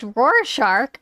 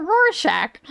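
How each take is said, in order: First: Rorschach said slowly as ROAR-SHARK; shark pronunciation. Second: Rorschach said slowly as ROAR-SHACK; shack pronunciation. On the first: Streamer weighing two pronunciations, Rorschach carefully said as ROAR-SHARK. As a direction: end Rorschach like the word shark, with an R. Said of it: "Is it pronounced Rorschach or Rorschach?". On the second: Streamer weighing two pronunciations, Rorschach carefully said as ROAR-SHACK. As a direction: end Rorschach to rhyme with shack, no R. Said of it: "Like Shake Shack". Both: Shown as a demonstration.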